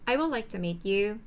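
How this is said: The first word gets strong stress. "I에 딱 강세를 주면"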